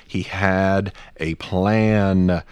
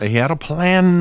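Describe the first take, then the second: First: Very slow, each word drawn out; slow and deliberate. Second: High, hammed-up old preacher cry. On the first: Real, not acted. Podcaster explaining God's plan, slow and deliberate. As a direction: spell it out word by word, unhurried. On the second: Podcaster parodying a pulpit sermon, old preacher voice. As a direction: belt it out like an old preacher, stretching PLAN. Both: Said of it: "I'm doing old preacher".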